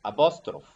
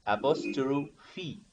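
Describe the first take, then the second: First: "apostrophe" with the final E dropped; apostrophe without final E. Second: Slow "apostrophe", ending in a clear "fee"; apostrophe with final E. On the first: Retold or imitated. Teacher imitates other teachers' mistake, "apostrophe" cut off at F. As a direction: say "apostrophe" ending on the F sound. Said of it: "some teachers ... saying apostrophe ... without the sound E". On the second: Shown as a demonstration. Teacher shows the right pronunciation, slow "apostrophe" ending in "fee". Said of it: "but the right pronunciation".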